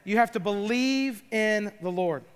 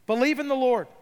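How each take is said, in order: First: Said in the usual way. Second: Firmer, higher second take; emphatic repeat. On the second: Retold or imitated. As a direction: repeat it like a preacher's call. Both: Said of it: "He says".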